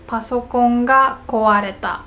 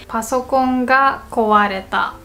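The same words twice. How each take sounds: The two takes are said the same way.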